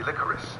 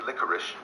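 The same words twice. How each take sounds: First: The word ends with an s sound. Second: The word ends with an sh sound. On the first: "If it ends in C E, yeah. then it should be licorice" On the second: "if you want me to say licorice, why don't you write S H at the end?"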